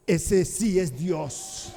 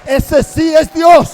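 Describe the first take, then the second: First: Awed hush. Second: Much louder, higher, slow cry; exultant shout. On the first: People fall down worshipping. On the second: The people on the ground crying out that the God of Elijah is God, loud and exultant. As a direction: burst out in triumphant praise. People proclaim after the fire. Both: Acted.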